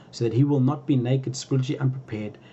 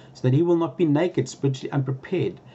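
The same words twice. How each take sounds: Both takes have the same delivery.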